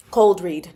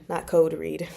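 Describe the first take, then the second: First: "Cold read" with a clear long O and a firm final L; correct pronunciation. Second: "code read" said with no L sound, as the slip was; wrong word quoted. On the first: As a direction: say "Cold" properly, not "code". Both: Shown as a demonstration.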